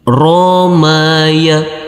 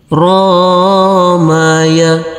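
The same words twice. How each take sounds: First: All three syllables are short. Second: Only the first syllable ro is lengthened. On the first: "semuanya kita baca pendek" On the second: "yang kita baca panjang yaitu huruf ro"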